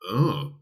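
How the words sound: The 'oh' sounds critical and disapproving. The speaker is judging harshly. "now we're actually getting critical in our tone of voice"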